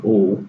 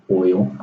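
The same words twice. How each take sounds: First: OIL said the Texas way, close to "ole"; Texas accent. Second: Said in the usual way. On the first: Shown as a demonstration. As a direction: say oil in one flat Texan syllable, like "ole". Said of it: "Excuse my Texas accent of saying". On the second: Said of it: "instead of".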